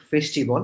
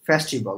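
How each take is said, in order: First: "ফেস্টিভ্যাল" with a closed e, "fesh-ti-bol"; "ফেস্টিভ্যাল" with a narrow first vowel; wrong pronunciation. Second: "ফেস্টিভ্যাল" with an open e, "fæs-ti-bol"; "ফেস্টিভ্যাল" opening wide on "fæs"; correct pronunciation. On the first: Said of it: "অনেকে ভুল উচ্চারণ করে". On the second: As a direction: model "ফেস্টিভ্যাল" with a broad first vowel. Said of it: "not ফেস্টিভ্যাল". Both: Shown as a demonstration.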